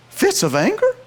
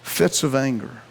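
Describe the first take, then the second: First: Fits of anger as a rising question. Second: Fits of anger said as a falling statement; flat statement. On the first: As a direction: lift anger up high like a question. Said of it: "Say it again, like a question". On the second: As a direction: drop the pitch on anger. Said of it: "you gotta do the inflection right". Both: Shown as a demonstration.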